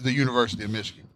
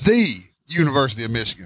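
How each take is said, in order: First: The word 'the' is reduced and run together. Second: The word 'the' is stressed and drawn out.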